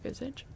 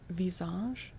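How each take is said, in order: First: The word is said with an English pronunciation. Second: The word is said with a French pronunciation. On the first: "If you're saying it in English, you say visage" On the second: "just like the word visage, face for French"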